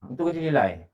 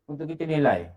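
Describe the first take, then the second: No difference in how they are said.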